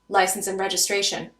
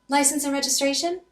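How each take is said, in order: First: It sounds firm and makes the listener worry. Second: It sounds weak and fails to convey authority.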